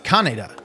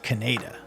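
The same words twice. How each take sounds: First: The name is said with a Japanese pronunciation. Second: The name is said with an English-style pronunciation. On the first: The speaker calls it right. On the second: The speaker calls it wrong.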